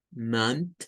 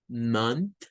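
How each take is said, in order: Both takes have the same delivery.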